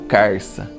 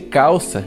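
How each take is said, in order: First: The first syllable ends with an R sound. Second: The first syllable ends with an L sound. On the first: This is how caipira speakers say the word. "dizemos carça" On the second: This is the standard form of the word. "No lugar de calça"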